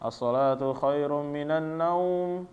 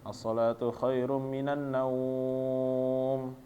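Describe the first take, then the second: First: The vowel in the last word is short. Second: The vowel in the last word is drawn out. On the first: The speaker calls it wrong. "rekaman-rekaman itu pendek dibacanya" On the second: The speaker calls it right. "seharusnya panjang sebenarnya"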